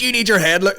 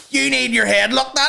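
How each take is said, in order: First: Mock woman scolding. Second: Much higher shrill scolding retort; high scolding woman. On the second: Retold or imitated. Woman scolding the kid, a high shrill retort. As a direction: snap it back like the furious woman. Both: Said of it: "She goes".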